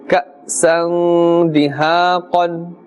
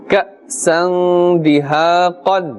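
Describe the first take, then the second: No difference in how they are said.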